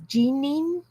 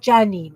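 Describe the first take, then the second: First: "Jeanine" slow, ee in both syllables, rising at the end; checking pronunciation. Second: "Janine" with an open ah in the first syllable; rejected pronunciation. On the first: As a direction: stretch "Jeanine" as jee-NEEN, like a question. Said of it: "Am I pronouncing it correctly". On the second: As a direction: say "Janine" as jah-NEEN. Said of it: "it's not Janine". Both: Shown as a demonstration.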